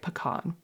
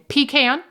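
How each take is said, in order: First: A Southern pronunciation, not sounding like 'pee' plus 'can'. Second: A Northern pronunciation, sounding like 'pee' plus 'can'. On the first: The speaker calls it right. "sounds beautiful and eloquent and southern and charming" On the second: The speaker calls it wrong. "I grew up in the North saying pecan"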